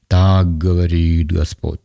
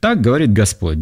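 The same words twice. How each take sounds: First: It is said in an altered, solemn put-on voice. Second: It is said in a plain, ordinary speaking voice. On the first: The speaker is putting on a religious show. The speaker calls it wrong. "голос меняется... Но некоторые это делают специально" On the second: The words are simply stated as written. The speaker calls it right. "он просто пишет"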